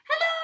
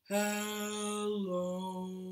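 First: Hello is said in a very high voice. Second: Hello is said in a very low voice.

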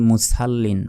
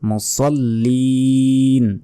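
First: The s is a light, thin seen sound. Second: The s is a heavy, emphatic sad sound. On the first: The speaker calls it wrong. "অনেকে ভুল বলি যে ফাওয়াইলুল মুসাল্লিন" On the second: The speaker calls it right. "এখানে আছে সদ ... তাই বলতে হবে লিল মুসাল্লিন"

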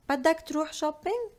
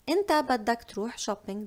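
First: The voice rises at the end like a question. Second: The voice falls at the end like a statement. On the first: It asks whether you want to go shopping. "if I want to turn it to a question, I'll just say" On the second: It states that you want to go shopping. "that means you want to go shopping"

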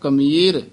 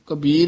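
First: The middle consonant is an m sound. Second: The middle consonant is a b sound. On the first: The speaker calls it right. "ਇੱਥੇ ਕਮੀਰ ਬੋਲਣਾ ਹੈ" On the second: The speaker calls it wrong. "ਪਾਠੀ Singh ਕਬੀਰ ਹੀ ਬੋਲ ਜਾਂਦੇ ਹਨ"

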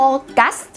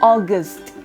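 First: Both syllables are said fully and clearly. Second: The second syllable has a weak schwa vowel. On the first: The speaker calls it wrong. "มันจะไม่ใช่ August แบบนั้นชัดทั้ง2 พยางค์ไม่เอานะคะ" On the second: The speaker calls it right. "เวลาออกเสียงต้องอ่านว่า"

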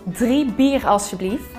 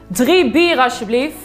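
First: It is said with crisp, exaggerated articulation. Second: It is said loudly with little articulation. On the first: The speaker calls it right. "maar ga meer articuleren" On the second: The speaker calls it wrong. "ga niet luider spreken"

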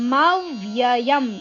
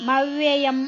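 First: The first syllable ma is stressed. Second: The first syllable ma is not stressed. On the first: The speaker calls it right. "ಮ ಅಕ್ಷರದ ಮೇಲೆ ಆಘಾತ" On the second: The speaker calls it wrong. "ಮವ್ಯಯಂ ಅಲ್ಲ"

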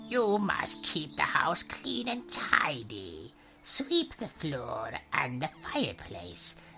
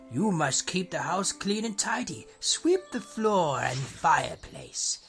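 First: It is said in a put-on witch voice. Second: It is said in a plain, non-witchy voice.

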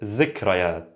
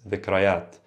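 First: The word begins with a z sound. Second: The word begins with a soft th sound. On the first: This is the dialect form. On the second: This is the original standard form.

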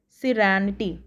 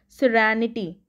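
First: The vowel after the R sounds like 'a'. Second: The same.

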